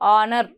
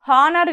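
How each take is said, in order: First: The word starts directly with a vowel sound. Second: The word starts with an audible h sound. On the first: The speaker calls it right. "ఇక్కడ హెచ్ silent" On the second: The speaker calls it wrong. "హానర్ కాదు"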